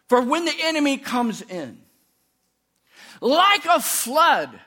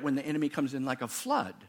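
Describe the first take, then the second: First: There is a pause after 'comes in'. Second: There is no pause after 'comes in'.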